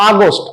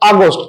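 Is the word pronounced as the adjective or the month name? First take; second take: adjective; adjective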